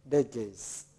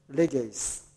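No difference in how they are said.

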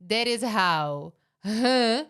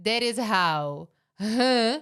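First: The t is flapped, almost like an r. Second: The t is flapped, almost like an r.

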